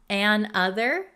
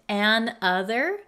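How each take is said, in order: The two takes are said the same way.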